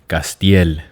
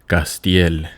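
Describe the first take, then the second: First: The name is said with a Spanish pronunciation. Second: The name is said with a Spanish pronunciation.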